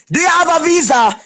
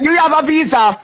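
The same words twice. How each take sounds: First: Shouted repeat. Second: Said in the usual way. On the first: Real, not acted. Repeating her question to a rival, now shouted. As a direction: shout the question again so it lands.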